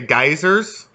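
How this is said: It is said the American way, like guy-zers.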